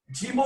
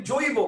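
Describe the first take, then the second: First: জীব said with the plain ই vowel; teacher says জীব, the form we do not use; wrong pronunciation. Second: জৈব said with the ঐ diphthong, জোইব; teacher gives জৈব, gliding through the ঐ; right pronunciation. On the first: Teacher shows the wrong form জীব, with the ই vowel. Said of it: "আমরা বলি না". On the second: Teacher shows the correct form জৈব, with the ঐ glide. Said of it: "আমরা বলি জৈব". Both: Shown as a demonstration.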